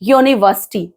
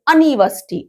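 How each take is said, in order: First: The word begins with a 'y' glide, 'yoo'. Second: The word begins with a short 'uh' vowel. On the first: The speaker calls it right. "यू की sounding आ रही है, वाई की, य की sound" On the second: The speaker calls it wrong. "अनिवर्सिटी तो अ की sound"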